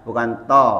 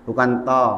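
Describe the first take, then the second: The two takes are said the same way.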